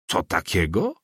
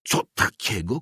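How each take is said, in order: First: Mild indignant question, rising at the end; raised exclamation. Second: Outraged question without real volume; mock a cry of disbelief, rising; understated shout. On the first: Inspector reacting to the priest's admission, mildly raised exclamation. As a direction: challenge it with a lifted ending. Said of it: "głośniej zawołał inspektor". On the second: Russian inspector to the priest, understated shout. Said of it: "krzyknął Rosjanin". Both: A narrator's reading.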